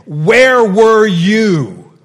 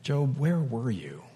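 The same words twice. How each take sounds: First: "Where were you?" roared very loud, much higher and slow; slow, booming, angry shout of "Where were you?"; thundering rebuke. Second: Soft, gentle "Job, where were you?" with the voice softer; quiet, tender asking of "Job, where were you?"; gentle question. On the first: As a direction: boom "Where were you?" as a furious God. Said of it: "Or did God say". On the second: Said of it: "And did he say". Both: Shown as a demonstration.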